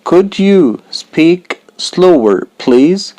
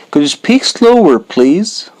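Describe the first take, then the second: First: Said in the usual way. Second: Quick natural take. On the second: Shown as a demonstration. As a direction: rattle it off like a native speaker. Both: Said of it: "slow then fast take".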